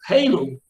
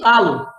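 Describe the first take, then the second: First: The word is said with English-like pronunciation. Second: The word is said with Portuguese pronunciation.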